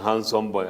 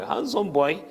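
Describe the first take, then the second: First: Said in the usual way. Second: "Handsome boy" lifted high, with a mocking lilt; ironic handsome boy. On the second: Shown as a demonstration.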